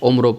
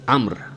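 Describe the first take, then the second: First: The name has two syllables, ending in 'o'. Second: The name has one syllable, ending in 'mr'. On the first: The speaker calls it wrong. "उम्रो पढ़ना गलत है" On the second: The speaker calls it right. "वो है अम्र अम्र"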